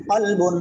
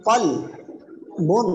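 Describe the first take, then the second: First: Said in the usual way. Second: কল and বুন split by a long pause; each syllable sounded out alone, কল, বুন. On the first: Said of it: "ভাঙ্গা উচ্চারণও করবেন". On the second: Shown as a demonstration. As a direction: break it up: কল... বুন. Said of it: "একটা একটা করে উচ্চারণ করবেন".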